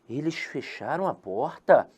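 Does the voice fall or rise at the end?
rise. The voice rises at the end, like a question.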